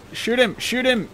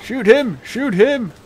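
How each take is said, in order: First: High frantic repeated shout; panicking gamer. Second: Screaming high and loud; panicking gamer. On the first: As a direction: bark it out in panic. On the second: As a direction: shout it in sheer panic. Panicked shouting during firefight. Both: Real, not acted.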